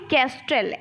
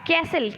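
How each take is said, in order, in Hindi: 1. t की ध्वनि बोली जाती है। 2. t की ध्वनि छोड़ दी जाती है। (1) "और लिखते क्या है" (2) "कैसल बोलते हैं"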